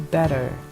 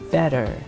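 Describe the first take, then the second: First: It is said in an American accent. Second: It is said in an American accent.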